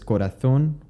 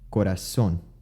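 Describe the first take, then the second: First: The z is not pronounced as an s. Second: The z is pronounced as an s. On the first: "the word that was pronounced as corazón" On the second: "would become corazón"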